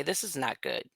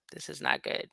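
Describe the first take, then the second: First: Said in the usual way. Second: Hushed, dropped to a whisper; whispered aside to herself. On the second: Real, not acted. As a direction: say it under your breath, dread sinking in. Whispered repeat to self.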